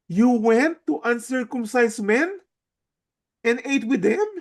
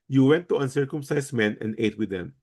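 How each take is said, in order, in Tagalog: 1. Sinabi ito sa sarkastiko at nang-uuyam na tono. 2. Sinabi ito sa payak at neutral na tono. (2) "It wasn't just like"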